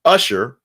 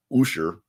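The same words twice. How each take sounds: First: Said in the usual way. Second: "Usher" opened with an oo sound; alternate pronunciation. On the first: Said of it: "or as some people still say". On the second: Shown as a demonstration. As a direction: say "Usher" as OO-sher. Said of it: "as some people still say".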